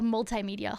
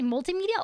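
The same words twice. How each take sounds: First: "multimedia" with multi ending like tie. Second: "multimedia" with multi ending in a tee sound. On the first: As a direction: say "multimedia" as mul-tie-media. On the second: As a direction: say "multimedia" as mul-tee-media. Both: Shown as a demonstration. Contrasting two pronunciations.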